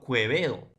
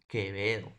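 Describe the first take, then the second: First: Quevedo with the u sounded, "Kwe-ve-do"; mispronounced Quevedo, "kwe" for "ke"; u wrongly sounded. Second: Quevedo with a silent u, "Ke-ve-do". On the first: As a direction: say Quevedo as "Kwebedo", voicing the u. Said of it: "la segunda no va a tener un sonido". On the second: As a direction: say Quevedo as "Kebedo", no w glide. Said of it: "¿Qué digo?". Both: Shown as a demonstration.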